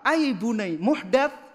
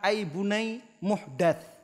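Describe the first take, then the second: First: It is said with questioning intonation. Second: It is said as a flat statement. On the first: It denies that the practice could be an innovation. "apakah ini muhdats, apakah ini bid'ah?" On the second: It declares that the practice is an innovation. "wahai anakku, ini adalah perkara muhdats"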